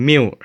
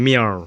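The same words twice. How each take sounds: First: "milk" said as "miw", no k; common mispronunciation. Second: "milk" with a longer, darker ending than "miw"; correct pronunciation. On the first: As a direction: say "milk" ending in a w glide. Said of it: "จะมักอ่านว่า". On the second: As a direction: say "milk" with a drawn-out dark l. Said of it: "แต่มันบ่แม่นอ่านว่า". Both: Shown as a demonstration.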